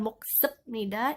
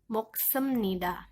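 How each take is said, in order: First: A b sound comes before 'nida'. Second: An m sound comes before 'nida'. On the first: The speaker calls it wrong. "dibacanya bukan moksepnida" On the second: The speaker calls it right. "Biep ini pengucapannya berubah menjadi miem. Sehingga dibaca moksemnida"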